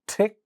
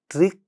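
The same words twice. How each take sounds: First: The first consonant has a puff of air. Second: The first consonant has no puff of air. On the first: "the initial sounds get aspirated" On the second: "without aspiration"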